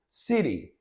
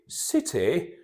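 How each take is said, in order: First: It is said in an American accent. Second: It is said in a British accent. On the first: "in the American accent" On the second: "let me read it in British"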